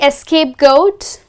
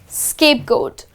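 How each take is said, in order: First: The word begins with an extra e vowel sound. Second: The word begins directly with an s sound. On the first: The speaker calls it wrong. "is it really escapegoat? No" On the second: The speaker calls it right. "The correct phrase is scapegoat"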